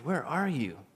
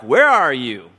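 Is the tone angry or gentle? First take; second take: gentle; angry. First: It is said in a gentle, inviting tone. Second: It is said in an angry, threatening tone.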